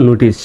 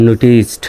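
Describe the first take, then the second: First: নোটিস ending on a plain s; pronunciation without D. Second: নোটিসড with a final t sound after the s; correct pronunciation. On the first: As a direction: say নোটিস as "nutis", no final t. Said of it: "যদি ডিটা না থাকতো". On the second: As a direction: model নোটিসড ending in "-st". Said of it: "এখানে উচ্চারণটা হবে". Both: Shown as a demonstration.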